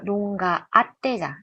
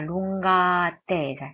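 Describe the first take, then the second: First: The two words are split apart with a break. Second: The two words run together without a break. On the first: The speaker calls it wrong. "나누지 않고요" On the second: The speaker calls it right. "la lunga attesa라고 발음해요"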